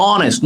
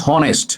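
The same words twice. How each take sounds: First: "honest" said as "onest", starting on the vowel; teacher's clear model of "honest" opening on an o sound; silent H. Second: "honest" with an audible h at the start; H sounded. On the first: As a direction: drop the h completely from "honest". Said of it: "উচ্চারণটা অ হয়েছে". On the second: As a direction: say "honest" wrongly as "honest" with a spoken h. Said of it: "not honest". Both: Shown as a demonstration.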